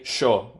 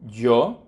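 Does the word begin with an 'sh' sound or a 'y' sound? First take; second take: sh; y. First: The word begins with an 'sh' sound. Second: The word begins with a 'y' sound. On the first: This is the River Plate accent of Argentina and Uruguay. "I would say sho, which is the Rio Platense accent" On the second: This is how other countries say it. "other countries pronounce the Y sound, as in yo"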